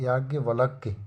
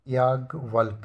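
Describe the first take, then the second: First: याज्ञवल्क्य ending in kya; correct form. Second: याज्ञवल्क ending on k; wrong form. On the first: Teacher correcting it, याज्ञवल्क्य ending in kya. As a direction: say याज्ञवल्क्य with final y sound. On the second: Teacher showing the error, याज्ञवल्क ending in bare k. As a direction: say याज्ञवल्क without a final y sound. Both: Shown as a demonstration. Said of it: "याज्ञवल्क गलत है".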